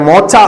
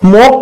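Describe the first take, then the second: First: The middle consonant is a 'ch' sound. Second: The middle consonant is a 'k' sound. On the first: The speaker calls it wrong. "ചിലപ്പോ pronounce ചെയ്യുന്നത് വേറെ രീതിയിലായിരിക്കാം" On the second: The speaker calls it right. "മോക്ക എന്നുള്ളതാണ് pronunciation"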